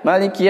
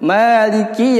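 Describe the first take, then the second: First: The vowel after k is dropped, said quickly. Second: The vowel after k is clearly pronounced. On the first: The speaker calls it wrong. "kasrohnya tidak dilapaskan, jadinya kayak uh, sukun ya... karena terlalu cepat membacanya" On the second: The speaker calls it right. "dijelaskan huruf kaf yang kasroh"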